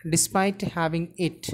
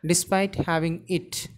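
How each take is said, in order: Both takes have the same delivery.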